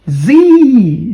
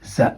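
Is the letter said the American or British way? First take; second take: American; British. First: The letter name is said the American way. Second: The letter name is said the British way. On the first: "that is in America, in, in Canada" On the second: "in the U K"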